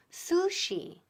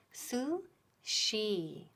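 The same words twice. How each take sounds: First: "sushi" said with a plain s, higher; wrong sushi. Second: "Sushi" with su then a clear sh; correct sushi. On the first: Teacher mimicking the learners' wrong sushi. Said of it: "Mucha gente dice sushi. Muy mal". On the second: Teacher modelling sushi correctly. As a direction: stretch "Sushi" slowly, su then sh. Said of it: "La primera parte es su ... y después viene la S H". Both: Shown as a demonstration.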